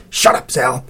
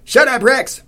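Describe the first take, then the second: First: Tight, scolding hiss. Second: High, loud command to a dog; stout lady's yell. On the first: Cece silencing Zal as the dog barks, hissing. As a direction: hiss a sharp rebuke at a friend. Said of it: "hissed Cece". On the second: Stout lady to her barking dog, yelling. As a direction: holler at your barking dog. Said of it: "said the stout lady". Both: A narrator's reading.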